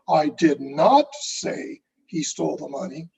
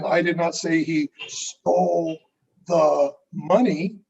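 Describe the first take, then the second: First: The stress falls on the word say. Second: The stress falls on the word money. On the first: It was communicated some other way. "then how did you communicate that message?" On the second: He took something else. "then what did he take?"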